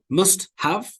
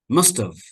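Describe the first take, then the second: First: The word have is said fully and strongly. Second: The word have is reduced to a weak schwa. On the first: The speaker calls it wrong. "We don't say it strongly" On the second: The speaker calls it right. "have becomes very weak"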